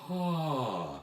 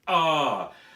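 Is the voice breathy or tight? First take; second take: breathy; tight. First: The voice is airy and breathy. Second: The voice is pressed and tight. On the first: "to breathy" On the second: "from tight"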